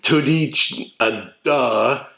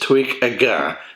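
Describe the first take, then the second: First: The last word has a d sound. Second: The last word has a g sound. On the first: This is how the spelling looks. The speaker calls it wrong. "It looks like" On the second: This is how it is actually pronounced. The speaker calls it right. "as far as I can tell, it's"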